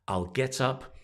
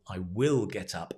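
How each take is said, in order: First: I will is shortened into one syllable. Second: I will is said as two full words.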